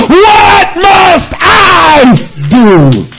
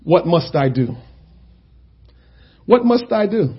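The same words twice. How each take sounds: First: Very slow, drawn-out shouted plea; pleading cry to God. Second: Soft, low, hushed plea; quiet prayer. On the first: Retold or imitated. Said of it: "what you have to say to God is". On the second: Real, not acted. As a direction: murmur it as a private prayer. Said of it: "we need to ask ourselves".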